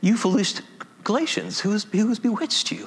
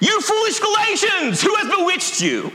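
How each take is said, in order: First: It is said in a gentle, mild tone. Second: It is said in an angry, scolding tone. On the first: The writer may not have been angry. "he may not have said it that way" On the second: The writer is upset with his readers. "He's not happy"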